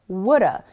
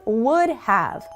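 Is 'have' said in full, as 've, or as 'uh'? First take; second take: uh; full. First: Have is reduced to a weak uh sound. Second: The word have is said in full. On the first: It sounds casual and native-like. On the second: It sounds the most formal.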